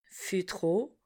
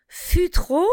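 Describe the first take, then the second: First: Fût trop repeated very softly, trop stressed, rising. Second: Fût trop said higher, fût stressed; teacher models the O in Fût trop; model phrase. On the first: Teacher echoes Fût trop quietly for the class. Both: Shown as a demonstration. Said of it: "passons au son O".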